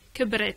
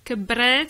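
First: The B sound is short and single. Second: The B sound is held long and doubled. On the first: She has grown old. "Elle a vieilli avec un seul B" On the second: She raised children. "j'insiste sur le B, donc en quelque sorte, je mets deux B"

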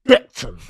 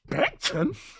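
First: It is said proudly and confidently. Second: It is said with a disgusted, scornful tone. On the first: The speaker is proud of where they are from. "I said it with chest" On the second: The place is looked down on. "the way he said Beckton's like with disgust"

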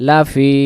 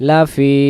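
No difference in how they are said.

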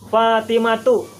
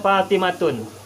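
First: The name ends in a plain vowel without n. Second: The name ends with an added n sound. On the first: The speaker calls it right. "pengucapannya dan penulisannya adalah Fatimatu" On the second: The speaker calls it wrong. "tidak boleh Fatimatun"

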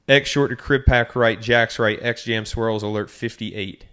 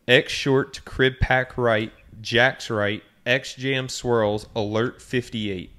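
First: The play is called fast. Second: The play is called slowly.

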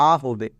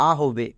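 The two takes are said the same way.

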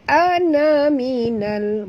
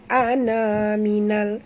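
First: The vowel after the n is short. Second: The vowel after the n is long. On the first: The speaker calls it right. "Jadi kita kena baca pantas" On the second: The speaker calls it wrong.

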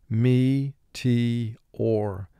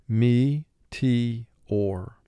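The two takes are said the same way.

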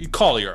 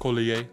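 First: The name is pronounced the plain English way. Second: The name is pronounced the French way. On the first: "But Collier" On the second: "like French"

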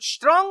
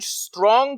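First: The word begins with an sh sound. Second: The word begins with a clear s sound. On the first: The speaker calls it wrong. "вони кажуть" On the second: The speaker calls it right. "Вони не кажуть"

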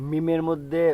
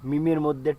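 No difference in how they are said.

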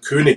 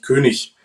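First: The word has a Bavarian regional pronunciation. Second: The word has a standard German pronunciation. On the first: The speaker calls it wrong. "dass wir in Bayern König sagen" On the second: The speaker calls it right. "aber es heißt eigentlich König"

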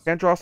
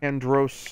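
First: The last syllable has a short 'o' vowel. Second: The last syllable has a long 'oh' vowel. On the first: "like Davros" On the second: "like Gross"

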